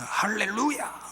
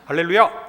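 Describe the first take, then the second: First: It is said in a deeply moved, emotional tone. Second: It is said in a light, casual tone.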